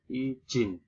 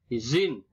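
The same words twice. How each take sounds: First: "izin" with j for z; nonstandard pronunciation. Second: "Izin" with a buzzing z; standard pronunciation. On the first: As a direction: say "izin" as i-jin. (ucapkan "izin" menjadi ijin) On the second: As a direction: say "Izin" with z, not j. (ucapkan "Izin" dengan bunyi z) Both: Shown as a demonstration. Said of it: "bukan izin".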